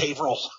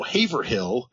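First: The place name is pronounced the local way. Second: The place name is pronounced the non-local way. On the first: The speaker calls it right. "You know it's Haverhill" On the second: The speaker calls it wrong. "every time they're like"

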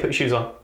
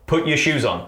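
First: It is said calmly, at normal volume. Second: It is said louder, more forcefully.

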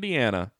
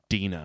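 First: The name is pronounced as Deanna. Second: The name is pronounced as Dina. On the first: The speaker calls it wrong. "Could have been Deanna" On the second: The speaker calls it right. "she goes, no, Dina"

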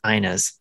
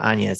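First: The name is pronounced like Ina's. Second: The name is pronounced like Anya's. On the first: The speaker calls it right. "it's Ina's" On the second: The speaker calls it wrong. "I keep wanting to say Anya's, but it's not Anya's"

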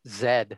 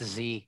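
First: The letter is said the Australian way. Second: The letter is said the local, non-Australian way.

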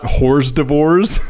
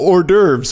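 First: It is read out letter by letter, like 'whores divorce'. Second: It is said the usual way, not as spelled. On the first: The speaker calls it wrong. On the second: The speaker calls it right. "I didn't know hors d'oeuvres was pronounced that way"

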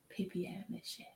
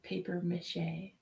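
First: The first word is said like French 'papier'. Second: The first word is said like English 'paper'. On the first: "Or if you're British, a papier mache" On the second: "They don't say paper mache"

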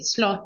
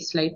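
First: It uses the vowel common among younger speakers. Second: It uses the vowel common among older speakers. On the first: This is how younger people usually say it. "lots of my generation say sloth" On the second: This is the older, traditional way of saying it. "my parents' generation say sloth"

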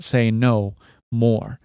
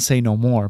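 First: The stress falls on the word no. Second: The stress falls on the word more. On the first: Refuse requests more often. The speaker calls it right. "but say no more" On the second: Nothing more needs to be said. The speaker calls it wrong. "Not say no more"

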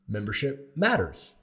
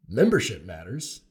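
First: The stress falls on the word matters. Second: The stress falls on the word membership. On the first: Membership is important. "which means membership is of import or important" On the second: It refers to matters concerning membership. "it could be membership matters. ... in the matters of membership"

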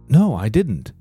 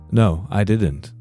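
First: The voice sounds warm and interested. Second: The voice sounds flat and uninterested. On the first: The speaker is still interested in the conversation. The speaker calls it right. "This still sounds like I'm interested" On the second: The speaker doesn't care about the topic. The speaker calls it wrong. "Which sounds like, you know, I didn't and I don't care"

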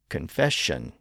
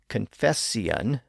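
First: The ending is one syllable with an sh sound. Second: The ending has an s sound and two syllables. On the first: This is the modern pronunciation. "thereby producing the modern pronunciation" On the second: This is the older pronunciation. "the S sound was slurred into an SH sound"

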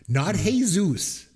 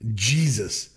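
First: The name is pronounced the Spanish way. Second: The name is pronounced the English way. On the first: This is how the name was expected to be said. The speaker calls it wrong. "I just assume when I see him, it's the Spanish pronunciation of Jesus" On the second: This is how the character's name is actually said. The speaker calls it right. "his name"

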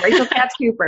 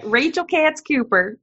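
First: It is said in the speaker's usual accent. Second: It is said in a Southern accent.

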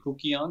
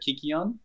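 First: The word is said in Erasmian Greek style. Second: The word is said in modern Greek style. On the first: "I have a very Erasmian pronunciation of the Greek, which is why I say kukion" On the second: "instead of"

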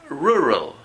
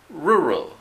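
The two takes are said the same way.

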